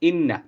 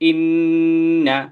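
First: The double n is short without a nasal hum. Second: The double n is held with a nasal hum. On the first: "ইন্না উচ্চারণ হলো ইন্না" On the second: "এই যে আমার নাকে এক ধরনের গুনগুন আওয়াজ হচ্ছে"

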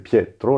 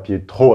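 First: The stress is on the first syllable. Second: The stress is on the last syllable. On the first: The speaker calls it right. "avec l'accent sur la première syllabe" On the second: The speaker calls it wrong. "c'est pas Pietro avec l'accent sur le O"

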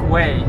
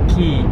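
First: The name does not sound like 'key'. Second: The name sounds like the word 'key'. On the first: The speaker calls it wrong. "I thought it's called Quay" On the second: The speaker calls it right. "you have to pronounce it as a key"

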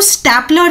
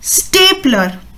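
First: The first vowel is a short 'a' sound. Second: The first vowel is an 'ay' sound. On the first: The speaker calls it wrong. "इसको स्टेपलर नहीं बोलते हैं" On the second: The speaker calls it right. "अ को आप ए बोलते हैं"

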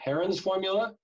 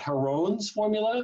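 First: Heron is said in a plain English way. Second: Heron is said in a French-sounding way. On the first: This is the usual, ordinary name. "it's usually just pronounced the way you think everybody would" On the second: This makes the inventor sound exotic. "I picture this being some very exotic French mathematician"

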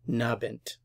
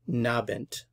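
First: The first part is dropped, leaving just 'nabend'. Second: The first part is dropped, leaving just 'nabend'.

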